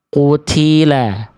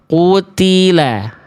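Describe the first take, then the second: First: The t is released with a strong puff of breath. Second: The t is released without an extra puff of breath. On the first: The speaker calls it wrong. "Berlebihan percikan nafasnya" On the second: The speaker calls it right. "Jadi cukup kita baca"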